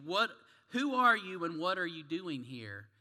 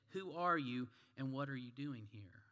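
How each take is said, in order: First: Loud, demanding soldier's question; barked challenge. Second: Said in the usual way. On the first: Acted. Russian soldier startles a wandering rabbi, barking loudly. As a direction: challenge an intruder forcefully. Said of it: "again, the soldier barked out". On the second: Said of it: "the rabbi responded".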